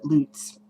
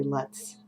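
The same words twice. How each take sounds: First: "Lutz" said the friend's way, with a different vowel; friend's pronunciation. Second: "Lutz" in the speaker's habitual version; own pronunciation. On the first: Retold or imitated. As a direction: imitate how the friend pronounces "Lutz". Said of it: "she pronounced it". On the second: Shown as a demonstration. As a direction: say "Lutz" your own way, unlike the friend's. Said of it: "but I say Lutz every single time".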